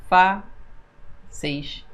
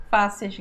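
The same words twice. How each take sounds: First: Fáceis split fá-ceis with a long pause; syllable by syllable. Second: Said in the usual way. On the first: Shown as a demonstration. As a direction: separate fá, then a softer ceis. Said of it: "Palavra paroxítona terminada em um ditongo".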